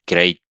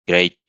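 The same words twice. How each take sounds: The two takes are said the same way.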